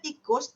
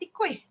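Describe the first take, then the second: First: It is said in standard Malay, ending in s. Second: It is said in Kedah dialect, ending -ui.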